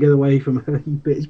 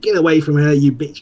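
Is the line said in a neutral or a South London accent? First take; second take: neutral; South London. First: It is said in a neutral, unmarked accent. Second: It is said in a South London accent. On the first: "that famous line" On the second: "just South London accent"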